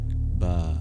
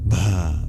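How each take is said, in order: First: The b has no puff of breath after it. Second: The b is followed by a puff of breath. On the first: The speaker calls it wrong. "rather than" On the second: The speaker calls it right. "It adds a breath to the B sound. It's aspirated"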